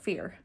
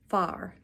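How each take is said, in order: First: The vowel is an 'ee' sound. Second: The vowel is an open 'ah' sound. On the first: The speaker calls it wrong. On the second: The speaker calls it right.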